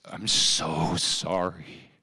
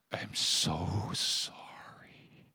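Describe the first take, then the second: First: Slow, drawn-out mild sob; imitating sobbing apology. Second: Softer, slow, unvoiced whisper; whispered sobbing apology. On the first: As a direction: stretch each word as if crying. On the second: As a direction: breathe it out, barely audible, as if crying. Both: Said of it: "and sobbed".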